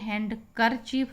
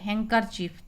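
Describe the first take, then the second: First: A d sound is pronounced after 'han'. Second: No d sound is pronounced after 'han'. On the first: The speaker calls it wrong. "तो ये हैंडकरचीफ नहीं होगा यहाँ पे" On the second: The speaker calls it right. "हैंडकर डा नहीं बोलेंगे, तो हैंकरचीफ"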